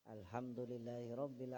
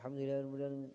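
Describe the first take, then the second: First: It is recited at a moderate, careful pace. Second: It is recited quickly and hurriedly. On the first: Every letter gets its full due. "Jadi hak-hak huruf pada Fatihah itu tetap dipenuh, dipenuhi" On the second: The reciter is rushing to finish. "cepat, kejar cepat saja, kejar tayang"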